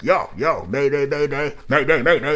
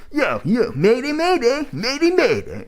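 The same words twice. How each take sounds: First: A light take on [name]'s high-energy yo mayday; imitating [name]'s energy. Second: Much higher, louder, exaggerated smug "mayday, mayday"; overdone smug version. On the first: Reviewer shows how [name] pulls off the chant, energetic. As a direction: hype but natural "mayday, mayday". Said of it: "'cause [name], when it's like". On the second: Reviewer shows the wrong, smug way to deliver the chant. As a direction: ham up the chant into a grating whine. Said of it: "but it's not like".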